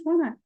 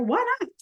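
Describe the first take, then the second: First: Why not, a touch higher and breezy; casual echo of the joke; lighter playful echo. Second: Why not, squeaked way up high; tossed-off tease, pitched far up; playful high why not. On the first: Repeating her design aside, a lighter breezy echo. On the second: Teaching a design trick, she squeaks a playful high aside. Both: Real, not acted.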